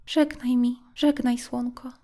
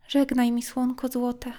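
First: Higher, lingering żegnaj, mildly sad; a light wistful goodbye, said over again; repeated farewell. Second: A mild touch of sorrow, calling to the sun; sad farewell. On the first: Girl repeating goodbye to the sun, mildly sad. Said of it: "powtarzała". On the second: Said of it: "zawołała i wyciągnęła rączki". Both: Acted.

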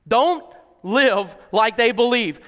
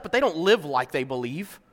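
First: "Don't" leaned on, slow and louder; emphatic repeat. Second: Said in the usual way. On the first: Shown as a demonstration. Preacher repeats the point to the congregation, slow and emphatic. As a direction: hammer "Don't live like they believe" slowly.

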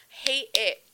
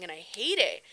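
First: "Hate" hit louder, echoing the line before; emphatic repeat. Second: Said in the usual way. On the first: Real, not acted. Telling viewers she hates running, stressing "Hate". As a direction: lean on "Hate" as a firm repeat.

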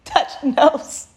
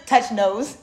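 First: Higher, altered put-on voice. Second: Giggling while speaking; laughing. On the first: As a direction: repeat it in a silly playful voice. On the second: Real, not acted. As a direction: say it through a real laugh.

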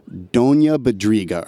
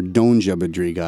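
First: "Donja" said as DON-ya; "Donja Badriga" with the j as a y; Donja with a y glide. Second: "Donja" said as DON-jah; "Donja Badriga" with a hard English j in DON-jah. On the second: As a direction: say "Donja" with a j as in jam. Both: Shown as a demonstration. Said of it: "I heard it pronounced both ways".

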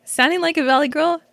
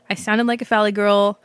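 First: Light mock valley girl lilt, rising at the end; a hint of valley girl, teasing. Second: Said in the usual way.

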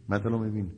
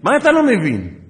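First: Said in the usual way. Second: High, loud imitated shout; exploding mock-furious question; angry. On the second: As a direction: yell it like an exasperated sergeant. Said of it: "כל מה שהוא התעצבן".

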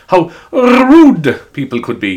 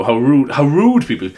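First: "rude" drawn out long, higher and louder; stress on rude. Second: Said in the usual way. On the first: Real, not acted. Shop worker appalled at customers, "rude" stretched and punched. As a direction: lean hard on "rude", stretching it right out. Repeats it with huge emphasis.

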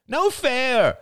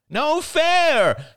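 First: Put-on high whiny toddler protest; a small boy's angry complaint, pitched high; angry child. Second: Put-on high, louder childish yell; the same complaint shouted harder; louder toddler protest. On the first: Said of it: "cried Ben angrily". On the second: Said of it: "he repeated, louder". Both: A narrator's reading.

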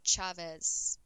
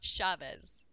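First: "Chavez" opened with a crisp tch, as in "church"; CH pronunciation. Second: "Chavez" opened with SH, as in "shop"; SH pronunciation. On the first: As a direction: answer "Chavez" with the hard CH. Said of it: "Is it Chavez or Chavez?". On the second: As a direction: concede "Chavez" said as "Shavez". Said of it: "Chavez for you". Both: Shown as a demonstration.

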